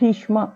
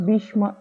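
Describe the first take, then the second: First: The first consonant is strongly aspirated. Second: The first consonant is light and unaspirated. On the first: The speaker calls it right. "ఇది ఒత్తి పలకాలి" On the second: The speaker calls it wrong. "తేల్చి మొదటి బాతో భీష్మ అని పలకకూడదు"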